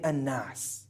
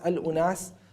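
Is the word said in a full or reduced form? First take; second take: reduced; full. First: The word is shortened and run together, an-nas. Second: The word is said in full, al-unas. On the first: "some people started to speak faster and they started to then say an-nas" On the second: "as the Arabs would say"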